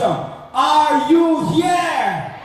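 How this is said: It imitates the voice of the previous announcer.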